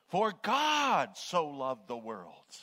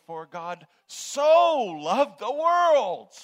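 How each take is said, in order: First: GOD drawn out high and loud; stress on GOD. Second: SO stretched very long, shouted high; stress on SO. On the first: Preacher showing how emphasis works from the beginning, stressing God. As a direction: hit "God" hard and long, slow the phrase. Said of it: "which words did you want to emphasize? You could start at the beginning". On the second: Preacher showing how emphasis changes the dynamics, booming on so. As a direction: belt out "so" long and loud. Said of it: "Or you could say". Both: Shown as a demonstration.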